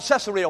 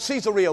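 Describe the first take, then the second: First: Said in the usual way. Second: "Caesarea" said see-ZAR-ee-a; native pronunciation. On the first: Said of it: "We call it". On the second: Shown as a demonstration. Preacher teaching the natives' "Caesarea", see-ZAR-ee-a. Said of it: "The natives call it".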